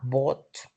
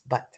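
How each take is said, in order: First: The vowel is an open o-like sound. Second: The vowel is a short schwa sound. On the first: The speaker calls it wrong. "it's not bot" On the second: The speaker calls it right. "this is a sound schwa"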